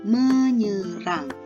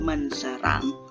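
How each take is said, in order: First: The s merges into a ny sound. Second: The s sound is kept after n. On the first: The speaker calls it right. "tapi menyerang" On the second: The speaker calls it wrong. "Bukan menserang"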